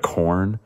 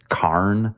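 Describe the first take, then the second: First: Said in the usual way. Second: "carn" with an AH vowel for corn; shifted vowel. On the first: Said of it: "instead of corn". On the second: Retold or imitated. Quoting grandma from Illinois, shifted vowel. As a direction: open corn's vowel out to "carn". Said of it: "my grandma would always say".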